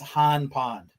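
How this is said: The r in the first word is dropped. This is how locals say it in person. "if anyone asks you about it, Kevin, in person, it's Han Pond"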